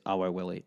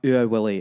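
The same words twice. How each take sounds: First: "our Willie" with "our" opened out like "hour"; standard English pronunciation. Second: "Ur Wully" with "Ur" as a single oor-like vowel; Scots pronunciation. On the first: Scot translating cartoon name again, "our Willie" in standard English. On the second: Scot repeating cartoon name, "Ur Wully" in Scots. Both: Shown as a demonstration. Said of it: "Ur Wully is our Willie".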